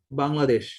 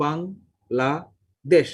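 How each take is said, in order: First: Said in the usual way. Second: Bangladesh broken into three slow syllables, with clear gaps. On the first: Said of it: "যদি একটা শব্দ বলি". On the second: Shown as a demonstration. Teacher showing how the brain breaks up a word, Bangladesh syllable by syllable. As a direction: say Bangladesh very slowly as বাং, লা, দেশ. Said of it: "তিনটা syllable উচ্চারণ করবে".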